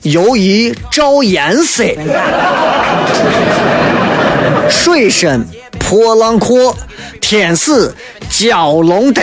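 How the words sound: It is read in Shaanxi dialect.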